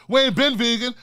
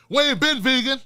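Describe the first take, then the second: No difference in how they are said.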